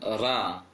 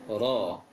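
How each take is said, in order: First: The vowel is a clear, open 'a'. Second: The vowel is an 'a' leaning toward 'o'. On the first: The speaker calls it wrong. "jangan ra" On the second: The speaker calls it right. "fathah yang mengarah ke o, mengarah bukan dibaca o"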